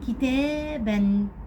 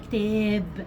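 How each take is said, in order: First: The word ends with an added n sound. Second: The word ends on a silent b, no n.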